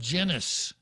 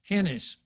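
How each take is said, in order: First: The name begins with a J sound. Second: The name begins with an H sound. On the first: Other people might say it this way. "others might call her" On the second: This follows Spanish spelling rules. "the pronunciation using the, the orthography from Spain"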